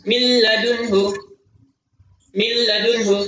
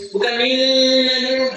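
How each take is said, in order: First: Min ladunhu with the nun merged into the l; milladunhu, no hum; merged reading. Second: Min and ladunhu split, nun said clearly; slightly higher, min said apart from ladunhu; wrong demo with a clear nun; separated wrong reading. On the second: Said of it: "Kurang tepat". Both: Shown as a demonstration.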